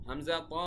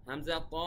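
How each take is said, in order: Both takes have the same delivery.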